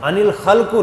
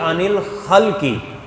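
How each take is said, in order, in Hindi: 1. अंतिम शब्द u स्वर से समाप्त होता है। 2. अंतिम शब्द i स्वर से समाप्त होता है। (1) "नहीं" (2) "बल्कि"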